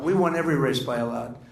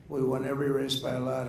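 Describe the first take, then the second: First: Louder boast, punching it out; loud, proud claim; emphatic boast. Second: Said in the usual way. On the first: Real, not acted. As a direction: hammer home the win. Boasting about election wins.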